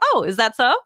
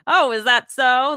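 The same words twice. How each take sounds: First: The tone sounds curious and interested. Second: The tone sounds doubtful and teasing. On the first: The speaker finds the news interesting. "But if you're telling me a piece of interesting news, I might say" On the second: The speaker is challenging what was said. "I might say to my son, oh, is that so? Like, yes. You're the king of the family"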